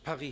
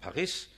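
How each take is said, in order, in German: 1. Der Name wird französisch ausgesprochen. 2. Der Name wird deutsch ausgesprochen. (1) "obwohl es Paris heißt auf Französisch" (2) "sondern Paris"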